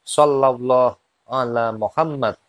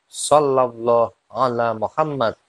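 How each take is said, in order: The two takes are said the same way.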